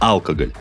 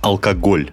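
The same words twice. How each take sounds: First: The stress falls on the first syllable. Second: The stress falls on a later syllable. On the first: The speaker calls it wrong. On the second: The speaker calls it right.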